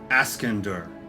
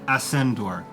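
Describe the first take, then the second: First: The name is said the local dwarvish way. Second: The name is said the outsiders' way. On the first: The speaker lives in the city. "most people who are who live here pronounce it Askendur, which is the kind of the dwarvish way" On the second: The speaker is not from the city. "that's kind of how other people pronounce it who aren't from Ascendor"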